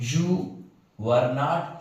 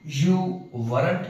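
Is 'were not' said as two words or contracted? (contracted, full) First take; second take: full; contracted. First: It is said as two full words. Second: It is said as one contracted word. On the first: "full form में नहीं बोलते हैं अक्सर" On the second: "हम लोग short form में बोलते हैं"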